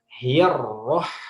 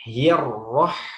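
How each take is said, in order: Both takes have the same delivery.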